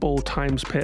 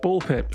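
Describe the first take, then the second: First: The middle letter is said as times. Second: The middle letter is left silent. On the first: "and all sorts of pronunciations" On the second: "apparently it's just Ball Pit"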